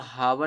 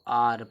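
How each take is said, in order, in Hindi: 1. इसकी शुरुआत में एक साफ़ h की आवाज़ है। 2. यह एक स्वर से शुरू होता है, इसमें h की आवाज़ नहीं है। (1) "यहाँ पे इसको हावर नहीं पढ़ते" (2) "इसको आर पढ़ते हैं"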